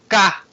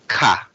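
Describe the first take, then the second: First: The syllable is said with a high pitch. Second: The syllable is said with a lower pitch.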